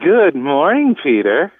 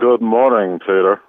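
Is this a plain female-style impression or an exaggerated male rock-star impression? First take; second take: female-style; male rock-star. First: A put-on voice imitating a woman's sultry greeting. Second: A put-on male rock-star voice imitating that greeting. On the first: "I can do it just as good as Val" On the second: "my impression of [name] doing [name]"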